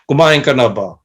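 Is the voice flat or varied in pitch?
flat. It is said in a flat, depressed monotone.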